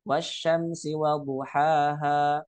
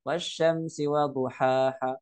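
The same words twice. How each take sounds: First: Duhaha with the final ha held for two beats; two-beat madd. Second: Duhaha ending cut short without the madd; wrong short ending. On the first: Teacher showing students the correct two-count length. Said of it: "Harusnya dua, dua harokat". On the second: Teacher imitating a reader's wrong short ending. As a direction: clip the last ha of duhaha short. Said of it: "Tapi dia baca malah". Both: Shown as a demonstration.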